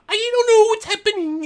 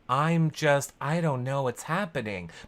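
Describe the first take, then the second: First: It is said in a silly Muppet-like voice. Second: It is said in a normal speaking voice.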